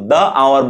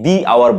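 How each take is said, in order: First: 'The' is said with a short 'uh' vowel. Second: 'The' is said with a long 'ee' vowel. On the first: The speaker calls it wrong. "তখন আমি কিন্তু দ্য আওয়ার বলবো না" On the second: The speaker calls it right. "আমি দি hour বলবো"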